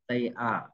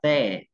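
First: It is said as two full separate words. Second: It is said as one contracted syllable. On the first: "người ta viết như thế này thì các em đọc là they are" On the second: "They là viết tắt của từ they are nha"

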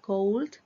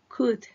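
First: It has a long O vowel and an L. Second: It has a short vowel and no L. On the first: The speaker calls it wrong. "Aquí esa palabra no se pronuncia cold" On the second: The speaker calls it right. "La O no se pronuncia. La L no se pronuncia"

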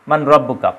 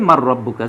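First: The n sound is clearly heard before the r. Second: The n sound merges into a doubled r. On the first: "কিন্তু শব্দটা হচ্ছে মান রব্বুকা" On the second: "উচ্চারণ একসাথে মিলানোর জন্য বলি আমরা মার রব্বুকা"

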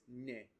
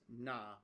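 First: The word ends with a mid 'e' vowel. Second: The word ends with an open 'a' vowel. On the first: The speaker calls it right. "Typically this na is ne" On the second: The speaker calls it wrong. "the pronunciation here is a little bit weird with the mechanical audio. That's not right"

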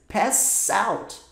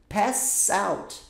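The two takes are said the same way.

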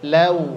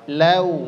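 Both takes have the same delivery.

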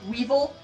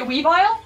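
First: The name ends with a short 'vil' sound. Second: The name ends with a long 'vile' sound. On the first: The name loses the pun on the word vile. The speaker calls it wrong. "But that omits the vile pun" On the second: The name keeps a pun on the word vile. The speaker calls it right. "so Weavile makes a little more sense to me"

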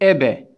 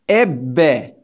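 First: The b sound is short and single. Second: The b sound is held long, doubled. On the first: The letter has no doubling mark. "bu şedde olmasaydı nasıl okuyacaktık arkadaşlar? Ebe diye okuyacaktık" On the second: The letter carries the doubling mark. "şedde olduğu için biz B'yi iki kere okuyoruz"

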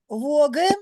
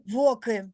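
First: The consonant after 'vo' is a voiced g. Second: The consonant after 'vo' is a voiceless k. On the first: This is how the word is spoken. "ми з вами кажемо воги" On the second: This is how the word is written. "а пишемо"

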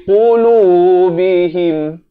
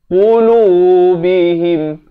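No difference in how they are said.

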